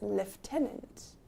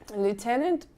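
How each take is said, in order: First: It is said in a British accent, with an f. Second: It is said in an American accent, without an f. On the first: "but in British English, it's lieutenant" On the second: "if you are using the American English"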